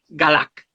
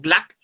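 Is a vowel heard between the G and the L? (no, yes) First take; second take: yes; no. First: A vowel is heard between G and L. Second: No vowel is heard between G and L. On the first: This is how it is said in the texts. "es Galac" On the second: This is how the written form suggests it is said. "se diría como Glac sin la A"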